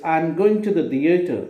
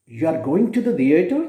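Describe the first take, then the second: First: "I'm going to the theater." falling on theater as a statement. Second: "You are going to the theater?" rising on theater as a question. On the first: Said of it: "falling tone". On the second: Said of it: "rising tone". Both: Shown as a demonstration.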